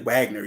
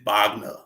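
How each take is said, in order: First: The name is said the English way. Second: The name is said the German way. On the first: The speaker calls it wrong. "You you don't say Wagner" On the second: The speaker calls it right. "you say Wagner"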